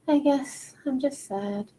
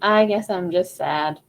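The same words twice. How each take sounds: First: It is said high up, in head voice. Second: It is said lower, in chest voice. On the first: "I was a lot up here" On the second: "That's more of like a chest voice kind of feeling"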